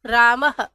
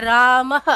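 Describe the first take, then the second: First: रामः drawn out slowly, the final h clearly breathed; slowly, रामः with a long audible h; slow visarga demo. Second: रामः with a short breathy h at the end; रामः with a quick visarga h; visarga demo. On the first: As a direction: stretch रामः and let the h be heard. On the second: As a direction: say रामः ending on a light h. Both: Shown as a demonstration. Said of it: "राम के आगे विसर्ग बोलते हैं".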